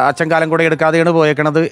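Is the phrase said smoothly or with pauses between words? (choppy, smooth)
smooth. The phrase flows smoothly without breaks between words. Father left without taking his umbrella. The speaker calls it right. "സ്വാഭാവികമായിട്ട് തെറ്റില്ല"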